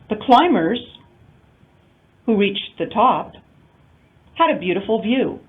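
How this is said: It is broken into three separate phrase groups. All of the climbers reached the top. "non-restrictive, we would have three intonation units"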